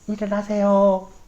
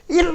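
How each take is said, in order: First: It is said softly and calmly. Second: It is shouted loudly and forcefully.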